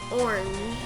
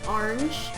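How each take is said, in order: First: It is said without rhyming with door hinge. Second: It is said to rhyme with door hinge. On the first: It is the pronunciation the speaker uses. "I pronounce it orange" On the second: It is the pronunciation the speaker does not use. "But I don't pronounce it orange"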